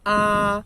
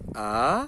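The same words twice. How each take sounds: First: The pitch stays high and level. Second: The pitch rises through the syllable. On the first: "a primeira entonação que é alta e plana" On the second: "a segunda que sobe"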